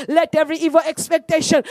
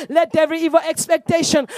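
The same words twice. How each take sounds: The two takes are said the same way.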